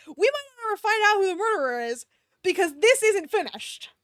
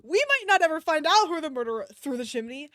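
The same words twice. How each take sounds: First: Dismayed wail. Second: Said in the usual way. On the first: Real, not acted. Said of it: "Oh, no, dude". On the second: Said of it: "first take".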